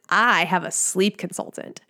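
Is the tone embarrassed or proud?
proud. It is said in a proud, confident tone.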